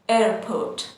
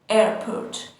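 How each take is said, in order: The two takes are said the same way.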